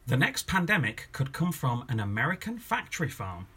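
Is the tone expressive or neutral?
expressive. It is said with a loaded, expressive tone.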